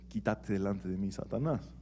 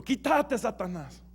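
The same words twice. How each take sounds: First: Softly, as if said privately in his ear; quiet aside. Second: High, sharp cry heard by all; shouted rebuke. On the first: Shown as a demonstration. Jesús quietly rebukes Pedro in his ear, a soft murmur. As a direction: murmur it low, just for Pedro. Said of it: "Jesús no le dijo quedito o calladito al oído". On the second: Retold or imitated. Jesús rebukes Pedro before the eleven, a high sharp cry. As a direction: call it out sharply so the eleven hear. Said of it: "Jesús le grita a Pedro".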